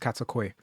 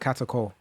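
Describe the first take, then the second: First: The name ends with a Y sound. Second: The name ends with an L sound. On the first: The speaker calls it right. "but I think it is Katakoi" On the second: The speaker calls it wrong. "I was just always called her Katakol"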